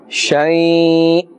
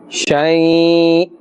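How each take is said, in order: The two takes are said the same way.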